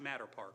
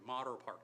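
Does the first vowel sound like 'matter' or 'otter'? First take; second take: matter; otter. First: The first vowel sounds like the 'a' in 'matter'. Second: The first vowel sounds like the 'o' in 'otter'. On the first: The speaker calls it wrong. "not Matter Park" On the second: The speaker calls it right. "I said it properly"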